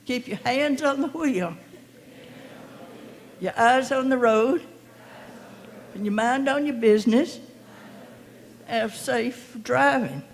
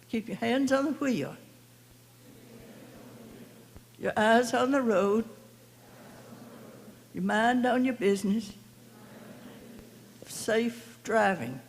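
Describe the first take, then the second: First: It is said firmly, as if meant. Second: It is said in a calm, plain way.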